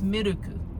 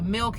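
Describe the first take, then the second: First: It is said with Japanese pronunciation, extra vowels. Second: It is said with ordinary English pronunciation.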